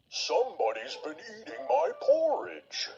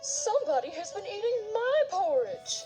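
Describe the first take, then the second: First: It is said in a great, gruff voice. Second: It is said in a middle-sized voice.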